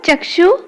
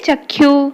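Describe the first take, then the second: First: The cluster is said the Hindi way. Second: The cluster is said the Odia way. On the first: "Hindi रे कौन हबो" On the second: "Odia रे"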